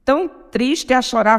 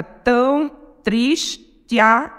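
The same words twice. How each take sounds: First: Said in the usual way. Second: "tão triste a" broken into slow beats, "triste a" fused as "tris-tia"; com elisão. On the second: Shown as a demonstration. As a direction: space out "tão triste a" slowly, merging "te a" into one syllable. ("tão triste a" escandido, juntando "te a" numa sílaba)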